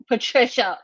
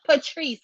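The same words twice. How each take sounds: First: "Patricia" said as the full name Patricia, the wrong name; misreading "Patricia" in full as Patricia. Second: "Patrice" said short as Patrice, the right name; correcting to "Patrice", two syllables; name corrected. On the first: Retold or imitated. Welcoming a viewer, saying "Patricia" wrongly in full. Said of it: "Patrice, forgive me". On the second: Real, not acted. Fixing a viewer's name, saying "Patrice" correctly. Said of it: "you got my own name".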